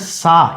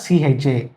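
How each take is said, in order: First: The syllable begins with an s sound. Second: The syllable begins with a ch sound. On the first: "This letter is pronounced either sa" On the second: "or cha"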